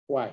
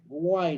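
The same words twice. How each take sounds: First: WHY starting with a Spanish J, "juay"; pronunciado con J. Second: WHY dicho aproximadamente "guay"; pronunciación aproximada. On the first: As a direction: say WHY as "juay", breath of J before the w. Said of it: "Con J se pronuncia why". (WHY pronunciado con jota: "juay") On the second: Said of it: "dice acá en el aproximado de la pronunciación". (WHY pronunciado "guay", aproximado) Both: Shown as a demonstration.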